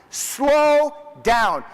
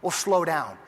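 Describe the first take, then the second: First: Louder and higher, a sharp order; stern scolding shout. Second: Said in the usual way. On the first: Retold or imitated. Harmon scolding the players, stern shout. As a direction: rein them in hard. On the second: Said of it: "Yeah, what's up this long line?".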